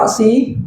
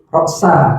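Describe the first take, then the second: First: The word ends with an 'i' vowel. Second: The word ends with an 'a' vowel. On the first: The head was not eaten. "Hatta bisa menjadi huruf jar. Berarti hatta ro si" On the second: The head was eaten too. "kalau huruf atof dibaca roksa"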